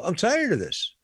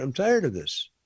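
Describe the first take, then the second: First: Exasperated. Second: Said in the usual way. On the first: Real, not acted.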